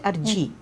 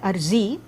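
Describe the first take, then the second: First: The middle consonant is a 'j' sound. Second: The middle consonant is a 'z' sound. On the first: Speakers whose alphabet lacks z replace the sound. "they will say Arji" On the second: This is the original Urdu form of the word. "when they want to use an Urdu word"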